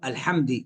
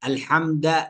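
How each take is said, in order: First: The final d is followed by i. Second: The final d is followed by a. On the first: "أو بكسرها" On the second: "بفتح الدال"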